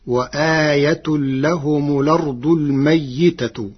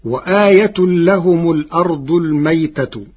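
First: الميتة as "al-mayyitatu"; doubled yā with kasra. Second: الميتة as "al-maytatu", yā without vowel; unstressed yā. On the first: Teacher shows Warsh's resulting reading, الميتة as "mayyitatu". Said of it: "بتشديد الياء مكسورة". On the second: Teacher quotes the verse before Warsh's reading, الميتة as "maytatu". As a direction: recite الميتة with a single, vowelless yā. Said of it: "كلمة الميتة بتشديد الياء مكسورة". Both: Shown as a demonstration.

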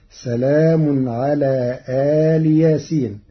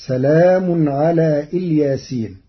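First: آل with an open lengthened alif, separate from ياسين; Warsh reading. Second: Said in the usual way. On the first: Shown as a demonstration. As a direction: say آل ياسين as two words. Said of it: "بفتح الهمزة ومدها وكسر اللام". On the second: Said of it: "قرأ ورش كلمة".

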